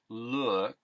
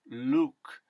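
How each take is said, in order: First: The vowel is the General American short oo. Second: The vowel is a simpler, purer sound. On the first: "the uh sound as in look" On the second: "simply becomes look"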